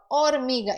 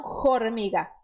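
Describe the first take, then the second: First: Hormiga with a silent h, starting on o. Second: Formiga with a strong f at the start; wrong h sound. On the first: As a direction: say hormiga as ormiga, no h sound. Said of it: "hormiga e não formiga". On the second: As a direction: say formiga, the Portuguese word with f. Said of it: "e não formiga". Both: Shown as a demonstration.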